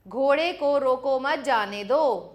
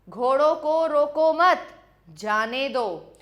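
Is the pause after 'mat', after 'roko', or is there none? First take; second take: none; after mat. First: It is said without any pause. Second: There is a pause after 'mat'.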